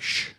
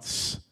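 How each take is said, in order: First: "sh" as a long hushing sound; isolated sh sound. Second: "s" as a long hissing sound; isolated s sound. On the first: Preacher explains the dialect test, hushing "sh". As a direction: demonstrate the bare "sh" consonant. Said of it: "They couldn't pronounce that sh". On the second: Preacher shows the Ephraimite slip, hissing "s". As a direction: demonstrate the bare "s" consonant, softer. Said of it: "It would come out s". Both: Shown as a demonstration.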